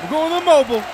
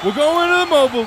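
First: Shouted play call. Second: Rushed, louder play call; fast shouted call. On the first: Quarterback calling the play. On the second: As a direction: rattle it off loud. Repeated faster, louder. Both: Acted.

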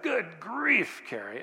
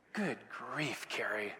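First: Exasperated snap. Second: Muttered annoyance. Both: Retold or imitated. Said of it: "And I was ticked".

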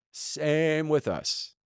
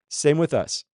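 First: "Same" stretched very long, then "with us" slowly; drawn-out emphasis. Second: Said in the usual way. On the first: Real, not acted. Preacher turning lesson on congregation, "Same with us" drawn out. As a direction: hold "Same" and let the whole phrase drag.

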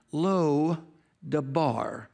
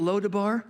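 First: "Lo Debar" broken into two words, Lo, then Debar; split pronunciation. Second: Said in the usual way. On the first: Shown as a demonstration. Preacher explaining the Hebrew, "Lo Debar" said in two separate parts. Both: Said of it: "In the Hebrew".

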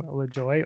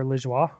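First: "Lajoie" said as luh-JOY, with a hard j; anglicized pronunciation. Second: "Lajoie" said as luh-ZHWAH, French style; French pronunciation. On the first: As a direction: say "Lajoie" English-style, ending like "joy". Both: Shown as a demonstration. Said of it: "I don't know how you say it".

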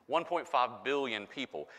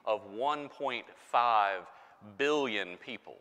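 First: Said in the usual way. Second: "one point five" spelled out slowly, stress on "one"; drawn-out "one point five billion" for impact; slow emphasis. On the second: Shown as a demonstration. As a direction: lean on "one" and slow right down. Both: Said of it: "The number of people who speak".

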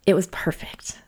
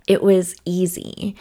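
First: Hushed whisper, savoring it. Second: Said in the usual way. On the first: Real, not acted. Remembering her favorite disclosure, a soft whisper. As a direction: breathe "it was perfect" as a soft whisper.

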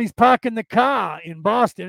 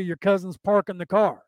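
First: Put-on Boston accent, "car" with no r at the end; mock Boston cousin, dropped r's, raised and louder. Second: Said in the usual way. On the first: Mimicking a Boston cousin parking the car, Boston accent. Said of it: "your cousin from Boston". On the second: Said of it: "In California".

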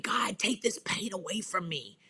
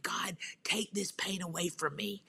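First: Said in the usual way. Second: Soft, whispered plea; whispered prayer. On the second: Retold or imitated. Praying alone in bed at night, whispered.

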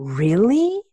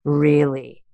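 First: "Really?" drawn up into a questioning rise; incredulous question. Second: "Really?" lower, ending in a fall; pointed repeat. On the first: Coach challenging a resentful client, "Really?" rising in disbelief. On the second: Coach pressing a resentful client, "Really?" falling and pointed. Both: Retold or imitated.

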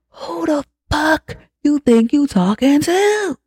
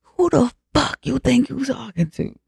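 First: Slow, very high mock-furious outburst; hammed-up fury, drawn out and climbing; acted losing it completely. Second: Mock-furious comeback, held in volume; acted losing it. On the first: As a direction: stretch the words out in escalating imitated outrage. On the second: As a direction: imitate outrage with the pitch thrown high. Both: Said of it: "Yeah, she lost her shit".

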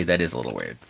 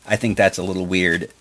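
First: Much lower and softer, deadpan; low deadpan mutter. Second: Said in the usual way. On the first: Real, not acted. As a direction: drop the voice, dry aside. Uh, really.

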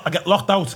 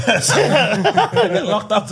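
First: Said in the usual way. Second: Slow, laughing through it; real laughter over the repeat. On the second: Real, not acted. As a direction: stretch it out, giggling.

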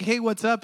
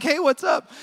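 First: Said in the usual way. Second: Bright, higher, called-out hey what's up. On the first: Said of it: "I'm not mad at him". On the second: Retold or imitated. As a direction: call it out across the parking lot. Walking straight towards staring man.

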